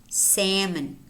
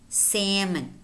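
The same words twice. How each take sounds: Both takes have the same delivery.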